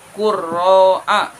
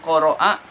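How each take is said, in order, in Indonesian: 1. Kata ini memiliki r ganda setelah u. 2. Kata ini memiliki r pendek dan vokal terbuka. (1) "yang betul qurro'a" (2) "itu bukan qoro'a"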